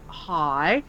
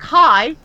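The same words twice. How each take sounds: First: Low, soft, unenthusiastic hello; reluctant greeting. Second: Higher-pitched, perky hello; chirpy greeting. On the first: Irked gamer answering an eager stranger, reluctant. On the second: Eager player greeting someone in game, chirpy. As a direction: imitate an over-friendly stranger. Stranger's greeting, retold with reluctant reply. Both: Retold or imitated.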